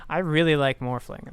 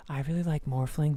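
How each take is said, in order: First: Shouted with REALLY stressed; loud declaration. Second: Said in the usual way. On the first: Real, not acted. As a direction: belt it out, louder. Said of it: "that might have been very loud". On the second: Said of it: "speaking my normal voice".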